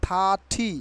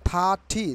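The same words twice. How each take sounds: No difference in how they are said.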